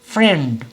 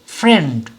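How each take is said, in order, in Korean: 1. 이 단어는 한 박자로 말합니다. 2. 이 단어는 한 박자로 말합니다.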